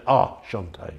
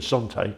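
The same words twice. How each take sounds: First: "Shanté" said with a sh sound in place of the s; mocking Francis's "Shanté" toast. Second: Said in the usual way. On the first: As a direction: say "Ah, Shanté" with sh at the start, as Francis does. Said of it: "Francis used to say". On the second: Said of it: "instead of".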